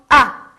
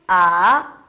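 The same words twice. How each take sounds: First: The pitch falls sharply from high to low. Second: The pitch dips low, then rises. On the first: "사성" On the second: "삼성"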